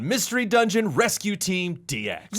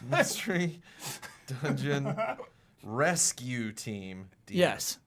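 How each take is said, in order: First: It is said with loud, genuine excitement. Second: It is said in a flat, unexcited odd voice. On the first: It is the climax of a trailer. The speaker calls it right. "You're excited, like legitimately excited" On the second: It imitates the original trailer narrator. The speaker calls it wrong. "that was my impression of him"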